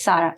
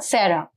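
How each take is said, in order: First: "Sarah" with an open "ah", SAH-ra; correct pronunciation. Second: "Sarah" with an "eh" vowel, SEH-ra; mispronounced name. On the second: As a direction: say "Sarah" the English way, SAIR-uh. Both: Shown as a demonstration. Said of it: "It's not Sarah".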